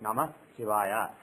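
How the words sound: A short breath separates the two words. It becomes a two-word mantra with a different impact. "taking little breath in between those two words"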